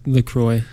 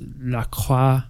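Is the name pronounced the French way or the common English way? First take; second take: English; French. First: The name is pronounced the common English way. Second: The name is pronounced the French way. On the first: "Everyone says LaCroix" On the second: "I think it's like French, so it's LaCroix"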